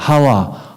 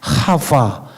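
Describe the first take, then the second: First: The middle consonant is a plain W sound. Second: The middle consonant is a buzzing V sound. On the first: This is the Korean form of the name. "우리나라 언어는 이 뇌가 진동이 되는 언어가 아니에요. 그냥 하와" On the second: This is the original Hebrew form of the name. "원래 하와가 아니라 히브리어 하바"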